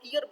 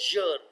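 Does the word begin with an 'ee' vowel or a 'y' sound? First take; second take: ee vowel; y sound. First: The word begins with a long 'ee' vowel. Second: The word begins directly with a 'y' sound. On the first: The speaker calls it wrong. "अक्सर लोग इसको ईयर बोलते हैं, तो ये गलत है" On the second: The speaker calls it right. "ये है यर"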